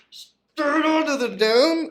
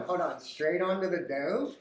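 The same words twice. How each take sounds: First: High, slow sung question; sung, mock opera phrase, drawn out. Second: Said in the usual way. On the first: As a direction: croon the line up high.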